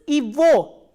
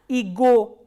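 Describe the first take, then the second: First: The middle consonant is a v sound. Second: The middle consonant is a g sound. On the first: The speaker calls it right. "this g is pronounced as v" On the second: The speaker calls it wrong. "not as g"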